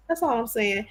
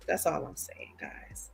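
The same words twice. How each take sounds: First: Said in the usual way. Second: Unvoiced whisper, confiding to viewers. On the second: Real, not acted. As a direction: whisper it like a little secret. Aside to viewers, then repeated.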